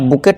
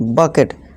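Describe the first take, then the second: First: The first vowel sounds like 'oo'. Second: The first vowel sounds like 'uh'. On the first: The speaker calls it wrong. "इसे बुकेट नहीं" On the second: The speaker calls it right.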